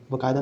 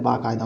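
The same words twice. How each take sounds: First: बाकायदा starting with short ba; wrong short vowel. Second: बाकायदा starting with long baa; correct long vowel. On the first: Teacher showing the mistake, short first vowel. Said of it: "नहीं होता है". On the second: Teacher correcting the word, long first vowel. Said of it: "होता है". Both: Shown as a demonstration.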